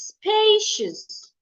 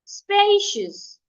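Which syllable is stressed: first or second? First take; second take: first; first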